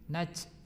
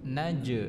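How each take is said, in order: First: The consonant is made too far forward, like 'ch'. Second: The consonant is a clear voiced 'j' sound. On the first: The speaker calls it wrong. "itu kan lidahnya terlalu maju" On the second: The speaker calls it right. "tengah lidah menempel ke langit-langit"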